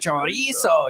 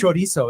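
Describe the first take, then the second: First: The word is said in a mocking, taunting way. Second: The word is said in a plain, neutral way. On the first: The speaker calls it wrong. "Like you don't have to say cho- chorizo" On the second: The speaker calls it right. "it's chorizo"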